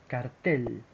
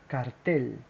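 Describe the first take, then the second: The two takes are said the same way.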